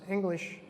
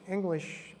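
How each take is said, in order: No difference in how they are said.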